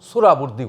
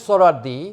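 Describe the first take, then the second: First: The middle of the name is said 'bur'. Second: The middle of the name is said 'war'. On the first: The speaker calls it wrong. "সোহরাবুর্দি বলতো" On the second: The speaker calls it right. "শুদ্ধ করে উচ্চারণ করত না"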